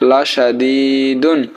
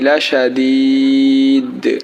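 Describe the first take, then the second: First: The word ends with an added -un sound. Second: The word stops on d with a long vowel. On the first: "দাল দুই পেশ দুন" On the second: "দুই পেশ অর্থাৎ তানবিনের উচ্চারণ হবে না"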